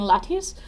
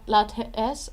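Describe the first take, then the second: First: The ending sounds like the word lattice. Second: The ending has a clear 'ay' vowel. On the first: "I'm saying lattes. Um, so it's a lattice of teas" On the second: "instead of saying lat, lattes"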